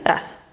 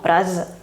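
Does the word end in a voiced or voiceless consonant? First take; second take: voiceless; voiced. First: The word ends in a voiceless S sound. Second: The word ends in a voiced Z sound. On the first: The speaker calls it right. "la Z pasa a es" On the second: The speaker calls it wrong. "no raz"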